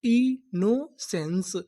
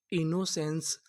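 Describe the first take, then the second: First: innocence drawn out very slowly; slow sounding out. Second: Said in the usual way. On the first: Shown as a demonstration. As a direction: stretch innocence for the class. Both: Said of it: "पूरी meaning क्या बनी?".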